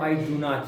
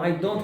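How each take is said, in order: First: 'Do' and 'not' are said as separate words. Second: 'Not' is contracted onto 'do'. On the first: It is more formal and emphatic. "this is much more official, and you're underlining it" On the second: It is a neutral, everyday statement. "both of them are the same"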